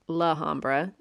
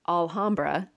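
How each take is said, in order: First: The name begins with the sound 'la'. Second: The name begins with the sound 'al'. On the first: The speaker calls it wrong. "not Lahambra" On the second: The speaker calls it right. "His house is in Alhambra"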